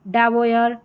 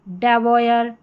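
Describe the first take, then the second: The two takes are said the same way.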